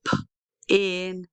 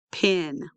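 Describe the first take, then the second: First: P alone, pause, then in; sounded out. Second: Said in the usual way. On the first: Shown as a demonstration. Teacher breaks down picture word, p in with a gap. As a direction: split pin into p and in. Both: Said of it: "Do you hear I".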